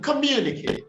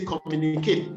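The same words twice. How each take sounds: First: Communicate high on a 'myoo' glide; corrected pronunciation. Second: Communicate with no 'y' glide; common mispronunciation. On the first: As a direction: model communicate as kuh-MYOO-ni-kate. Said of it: "It requires a palatal-like sound". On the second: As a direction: say communicate as com-moo-ni-KATE. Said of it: "we say". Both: Shown as a demonstration.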